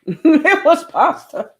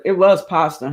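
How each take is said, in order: First: High, slow words through real laughter; giggling while repeating the line; laughing. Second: Said in the usual way. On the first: Real, not acted. Laughing at own pasta comment.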